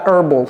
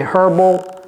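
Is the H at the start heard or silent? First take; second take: silent; heard. First: The word starts without an H sound. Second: The word starts with an audible H. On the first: The speaker calls it wrong. "Ne dites pas herbal" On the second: The speaker calls it right. "Prononcez le H ... c'est herbal"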